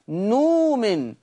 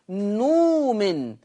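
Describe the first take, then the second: No difference in how they are said.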